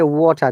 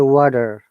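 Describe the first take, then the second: First: The middle t is a clear t sound. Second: The middle t sounds like a d. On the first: "like they don't say water" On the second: "they say water"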